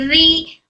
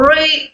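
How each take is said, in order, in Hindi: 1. r की आवाज़ हल्की और पतली है। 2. r की आवाज़ भारी और मुँह भरकर निकलती है। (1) "बारीक पढ़ेंगे" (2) "री ऐसे मोटा नहीं"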